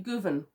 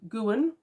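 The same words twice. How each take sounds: First: The y is said as a v sound. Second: The w is said as an oo vowel. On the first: "Y is sometimes pronounced V ... If it was, this would be Gwyn" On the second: "I understand that W is often U, so that would be Gwyn"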